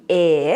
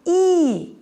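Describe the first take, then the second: First: "E" as a low, open eh; short E vowel. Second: "E" as a long high ee; long E vowel. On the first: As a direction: say "E" as in breath. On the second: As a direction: hold "E" as in breathe. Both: Shown as a demonstration. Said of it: "The vowel sound".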